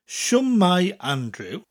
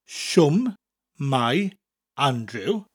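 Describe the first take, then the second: First: It is said at normal speed. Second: It is said slowly.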